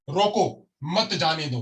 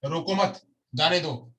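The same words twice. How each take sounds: First: रोको stressed, pause, then मत जाने दो together. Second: रोको मत run together, pause, then जाने दो; pause after मत. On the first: Teacher showing how stress changes meaning, stress and pause on रोको. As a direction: break after रोको, slow, run मत जाने दो as one order. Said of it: "हमने यहाँ पे बल दिया". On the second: Teacher showing the changed sentence, pause placed after मत. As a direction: join रोको to मत, break, release जाने दो separately. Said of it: "कहाँ पे पॉज दिया जा रहा है". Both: Shown as a demonstration.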